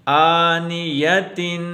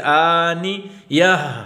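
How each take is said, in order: First: The word ends with a full -tin sound. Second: The word ends with a short h sound. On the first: The reciter continues without stopping. "ना रुकने की वजह से वक्फ ना करने की सूरत में हम इसको पढ़ेंगे आनियतिन" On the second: The reciter stops at this word. "अगर हम यहाँ रुकना चाहते हैं, दोनों को छोड़ देंगे तो हा खाली रहता है"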